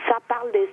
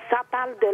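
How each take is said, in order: Both takes have the same delivery.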